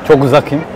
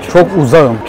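First: The k stays hard and a vowel follows. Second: The k softens into a smooth ğ sound. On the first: The speaker calls it wrong. "Yumuşama harfi gitti" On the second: The speaker calls it right. "Yumuşattık"

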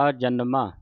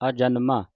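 Both takes have the same delivery.

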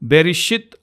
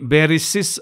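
First: It has sh then a final t sound. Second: It has s then a final s sound. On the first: The speaker calls it right. "బెరిషిత్ అన్నదాన్ని" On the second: The speaker calls it wrong. "బెరిసిస్ అనేవారు"

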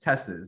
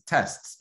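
First: The final T is dropped, adding an extra syllable. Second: The final T is kept, in one syllable. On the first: The speaker calls it wrong. "you don't pluralize the word test as tests" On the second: The speaker calls it right. "it's tests"

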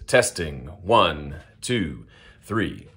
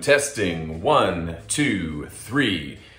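First: The voice sounds dry, with little room reverberation. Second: The voice sounds echoey, with room reverberation. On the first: "My studio space" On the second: "Big empty room"

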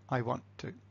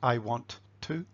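First: Sounds in 'want to' drop out, close to 'wanna'. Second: Every sound in 'want to' is said in full. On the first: The speaker calls it right. "but I want to" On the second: The speaker calls it wrong. "So not I want to"

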